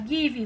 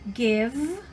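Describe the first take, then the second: First: An extra vowel sound follows the final consonant. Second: The word stops cleanly on the final consonant. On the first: The speaker calls it wrong. "de falar as, as letras S do final das palavras, que não funciona em inglês... não é assim" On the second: The speaker calls it right. "você parasse nesse som da consoante final"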